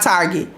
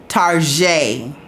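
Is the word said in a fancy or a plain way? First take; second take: plain; fancy. First: The word is said in an ordinary, plain way. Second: The word is said in a posh, fancy way. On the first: The speaker calls it wrong. "Excuse me, not" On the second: The speaker calls it right. "you got to say that with your pinky out"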